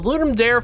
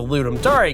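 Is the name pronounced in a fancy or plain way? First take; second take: plain; fancy. First: The name is pronounced in a plain, everyday way. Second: The name is pronounced in a fancier, careful way.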